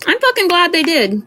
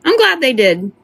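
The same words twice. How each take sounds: First: Fucking punched high; stress on fucking. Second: Said in the usual way. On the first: Real, not acted. Streamer stressing fucking when repeating herself. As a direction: hit the word fucking hard and high.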